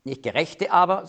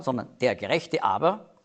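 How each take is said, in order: First: Said in the usual way. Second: "der" given weight before "Gerechte aber"; stress on der. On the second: Shown as a demonstration. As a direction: lean on the article "der". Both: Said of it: "muss man sagen".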